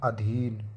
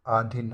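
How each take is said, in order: First: अधीन with long ee; correct form. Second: अधीन with long opening aa; wrong form. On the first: Teacher correcting it, अधीन with long dhee. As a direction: say अधीन as a-dheen. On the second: Teacher showing the error, अधीन starting on long aa. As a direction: say अधीन as aa-dhin. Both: Shown as a demonstration. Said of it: "अधीन नहीं".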